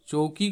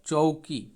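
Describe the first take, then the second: First: Said in the usual way. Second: चौकी slowly, with औ as an "o-u" glide; चौकी as cho-u-ki, drawn out; Panchpargania pronunciation. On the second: Shown as a demonstration. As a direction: stretch चौकी into "चोउकी". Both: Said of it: "इस तरह से इसका उच्चारण होंगे".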